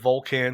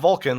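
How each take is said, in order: First: It sounds unlike the English Star Trek word. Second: It sounds like the English Star Trek word. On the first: The speaker calls it right. "but Vulcan shield" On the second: The speaker calls it wrong. "not Vulcan like Spock"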